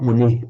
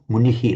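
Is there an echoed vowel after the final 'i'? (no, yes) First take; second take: no; yes. First: The word ends plainly without an echoed syllable. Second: The word ends with an extra echoed 'hi'. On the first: The speaker calls it wrong. "not muni" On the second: The speaker calls it right. "little shadow vowel"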